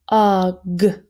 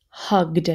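First: "Hugged" split as h, ug, d; sounded out. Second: Said in the usual way. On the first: Shown as a demonstration. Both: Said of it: "last row, let's do it".

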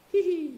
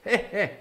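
First: Squeaky high tee-hee; sly high-pitched pirate tee-hee; high giggle. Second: Just chuckle it; plain heh heh. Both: Shown as a demonstration. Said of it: "That's how it's written".

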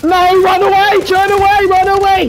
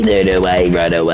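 First: Very high, loud squealing run away; mock panic squeal. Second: Much lower, heavy run away; mock deep voice. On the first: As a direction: squeal it like a frightened kid. Panicked cries while fleeing. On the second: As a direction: drop the voice low and dopey. Same cry repeated in a low voice.

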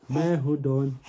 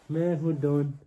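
The two takes are said the same way.

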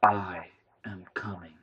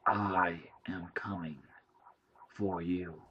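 First: Slow alien message; alien machine voice. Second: Slow whispered threat from the entity; slow creeping whisper; menacing alien whisper. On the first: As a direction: speak as the thing behind the screen. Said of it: "The screen blinked". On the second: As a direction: breathe it like a threat in the dark. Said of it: "the screen said". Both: A narrator's reading.

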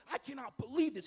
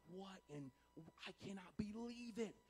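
First: Outraged king, voice raised and higher; a touch of royal indignation, loud; mild outrage. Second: Soft, hushed amazement; stunned disbelief. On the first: Preacher voices the king angry at their response, mildly outraged. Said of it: "He's outraged". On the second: King staring at four men unharmed in the fire, softly stunned. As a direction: let it out quietly, dumbfounded. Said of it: "contrast to what he was just saying earlier". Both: Acted.

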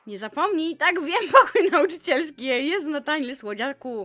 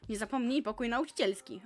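First: Loud, laughing, teasing repeat; amused loud mock reading; mocking laughing reread. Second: Said in the usual way. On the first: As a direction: laugh through it as you read it again.

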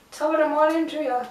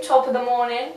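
First: Higher, quick lilting greeting; singsong. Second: Said in the usual way. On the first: Pretend. Vlogger greets viewers playfully, singsong. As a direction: lilt it like a little tune. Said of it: "Sound like I was singing".

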